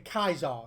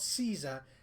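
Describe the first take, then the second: First: The word begins with a hard K sound. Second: The word begins with a soft S sound. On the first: This is how the rest of the Legion says it. "Like they say Kaiser" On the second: This is how one character says it. "So he uses soft S's"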